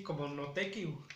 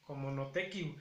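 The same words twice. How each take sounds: First: "notekiu" dicho despacio y claro, con la u final audible; pronunciación de los abuelos. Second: "notekiu" repetido más suave, con la u final clara; pronunciación repetida. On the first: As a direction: di "notekiu" marcando la u del final. ("notekiu" pronunciado con la u final bien marcada) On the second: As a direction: repite "notekiu" con calma. ("notekiu" repetido en voz más baja) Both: Shown as a demonstration. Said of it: "lo pronuncian así".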